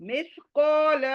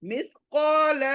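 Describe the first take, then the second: The two takes are said the same way.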